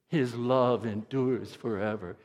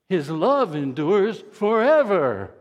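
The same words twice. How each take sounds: First: The word forever carries no special emphasis. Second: The word forever is strongly emphasized. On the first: "Say that with me" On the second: "put the emphasis on good and forever"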